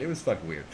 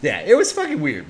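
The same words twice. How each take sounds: First: "fucking weird" dropped low and soft; trailing low, soft repeat; low muttered aside. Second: Said in the usual way. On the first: Real, not acted. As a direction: mutter it to yourself. Repeats the phrase much quieter.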